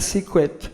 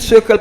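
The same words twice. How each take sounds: First: The word has an English pronunciation. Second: The word has a French pronunciation. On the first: The speaker calls it right. "faut dire secret" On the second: The speaker calls it wrong. "En français, je dis le secret pas comprendre"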